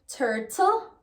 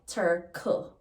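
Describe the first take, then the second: First: It is said in standard English. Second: It is said in Jamaican patois.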